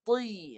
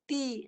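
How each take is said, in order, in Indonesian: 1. Bunyinya tebal dan penuh. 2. Bunyinya tipis dan ringan. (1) "Kekalkan naik. Tri. Ha, tetap tebal" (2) "Kalau turun, ti. Ha, terus nipis"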